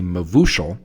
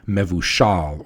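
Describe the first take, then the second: First: It is said in an Eastern European Hebrew style. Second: It is said in a Middle Eastern Israeli style. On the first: "while I say" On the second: "there are lots of folks who say"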